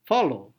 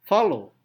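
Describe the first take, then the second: First: The stress is on the second syllable. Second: The stress is on the second syllable.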